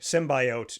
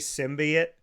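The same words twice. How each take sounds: First: The last syllable sounds like goat. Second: The last syllable does not sound like goat. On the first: This is the way heard in the movie. "it sounds like goat" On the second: This is the speaker's own way of saying it. "I say symbiote"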